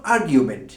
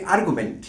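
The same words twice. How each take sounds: First: আর্গুমেন্ট said as "AR-gyu-ment", with a y glide after the g; standard pronunciation. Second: আর্গুমেন্ট said as "AR-gu-ment", no y glide after the g; commonly heard pronunciation. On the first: Teacher giving learners the noun form, standard "AR-gyu-ment" pronunciation of আর্গুমেন্ট. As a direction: say আর্গুমেন্ট with "gyu" in the middle, not "gu". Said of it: "standard pronunciation হবে".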